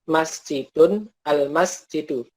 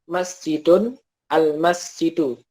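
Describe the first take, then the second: No difference in how they are said.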